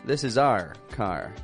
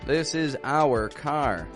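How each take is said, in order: First: 'Our' is clipped short, like the letter R. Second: 'Our' is drawn out, like 'hour'. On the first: The speaker calls it right. "we actually say it more like our" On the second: The speaker calls it wrong. "A lot of people will say"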